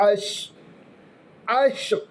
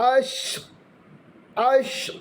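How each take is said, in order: Both takes have the same delivery.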